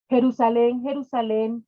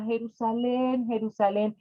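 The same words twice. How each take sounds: First: Calls the city's name out loud, then eases off; loud lament. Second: Name the beloved city gently; tender, loving naming. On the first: Jesus laments over Jerusalén, calling loudly. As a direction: cry out to the city in grief. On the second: Jesus tenderly names his beloved city. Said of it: "de una forma muy cariñosa y muy amorosa". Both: Acted.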